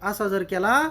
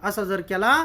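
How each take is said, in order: No difference in how they are said.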